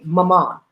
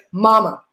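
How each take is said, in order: First: "mama" stressed on the end, ma-MA; accented "mama". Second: "mama" stressed on the first syllable, MA-ma; accent-less "mama". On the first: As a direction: lean on the second syllable of "mama". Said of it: "She said it that way". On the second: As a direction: say "mama" the everyday way, front-stressed. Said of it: "Joe can't remember the accent". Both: Retold or imitated.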